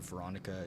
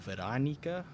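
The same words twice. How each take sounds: First: The name is pronounced the usual English way. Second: The name is pronounced the Polish way. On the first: "instead of Veronica" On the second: "pronounced the way that Polish people pronounce them"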